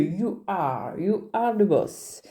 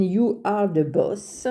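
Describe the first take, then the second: First: "You are the boss" slow, in a put-on English accent. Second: Said in the usual way. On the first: Shown as a demonstration. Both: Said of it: "Avec l'accent, c'est mieux".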